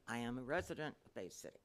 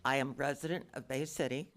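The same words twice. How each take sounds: First: Soft and away from the mic; speaking too softly to be heard; too quiet. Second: Louder, close to the microphone; leaning into the mic. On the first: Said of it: "could you speak up a little bit". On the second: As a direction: lean in and speak up. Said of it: "lean into the microphone". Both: Real, not acted.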